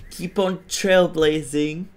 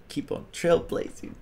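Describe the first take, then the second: First: Said in the usual way. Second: Soft whispered echo. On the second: Real, not acted. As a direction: breathe it like an echo. Catchphrase echoed whispered.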